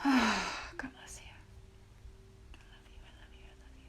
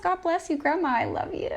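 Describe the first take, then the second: First: Tearful whisper. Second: High, louder, beaming thanks; joyful blessing. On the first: Whispering love to her late grandmother, tearful. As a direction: barely breathe the words through tears. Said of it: "I knew this would get emotional". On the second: Blessing her late grandmother aloud, joyful and high. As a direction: call out love to her with a full heart. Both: Real, not acted.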